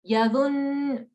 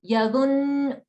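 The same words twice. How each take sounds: The two takes are said the same way.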